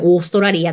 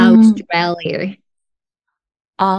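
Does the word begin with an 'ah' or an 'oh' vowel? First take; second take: oh; ah. First: The word begins with a long 'oh' vowel. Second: The word begins with an open 'ah' vowel. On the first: The speaker calls it wrong. "カタカナで読むとそうっていうだけで" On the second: The speaker calls it right. "本来のオーストラリアは別にオーストラリアっていう音ではないので"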